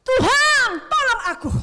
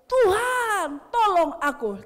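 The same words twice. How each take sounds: First: High, very loud cry for help; shouted plea. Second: Loud desperate cry for help. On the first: Preacher acting Peter's plea to the Lord, very loud high shout. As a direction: scream it up to heaven. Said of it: "Kata-katanya gini". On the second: Peter sinking, calling out to Jesus, loud pleading cry. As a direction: call to the Lord like you're going under. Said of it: "Lalu berteriak". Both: Acted.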